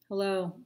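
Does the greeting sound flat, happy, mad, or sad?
flat. The greeting sounds flat and unexpressive. The speaker feels indifferent. "That's pretty meh"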